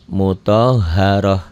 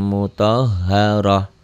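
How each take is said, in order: No difference in how they are said.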